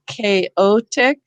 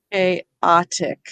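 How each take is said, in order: First: CHAOTIC split before the T, middle syllable a long "oh"; long O syllable break. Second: CHAOTIC split after the T, middle syllable a short "ah"; closed syllable, short O in chaotic; short O syllable break. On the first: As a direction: say chaotic slowly as kay-OH-tic. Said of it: "So is it chaotic". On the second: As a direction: say chaotic as kay-OT-ic. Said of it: "is it". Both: Shown as a demonstration.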